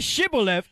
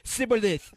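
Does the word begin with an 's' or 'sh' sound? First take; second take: sh; s. First: The word begins with a 'sh' sound. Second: The word begins with a plain 's' sound. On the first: The speaker calls it right. "They said say Shibboleth" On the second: The speaker calls it wrong. "He didn't say the H"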